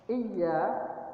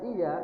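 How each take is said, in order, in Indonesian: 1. Bunyi y dirangkap dan dibaca panjang. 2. Bunyi y tunggal dan dibaca pendek.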